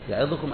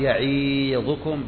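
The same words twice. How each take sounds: First: The vowel after ẓ is only partly pronounced. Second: The vowel after ẓ is stretched into 'ee'. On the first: "أتى بجزء الكثرة" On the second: "لا هذا ما يصلح لأنها صارت ياء"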